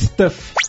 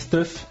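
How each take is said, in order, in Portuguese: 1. A palavra é dita com sotaque brasileiro. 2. A palavra é dita com sotaque inglês. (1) "não teve sotaque aí no Stuff" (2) "Fala direito"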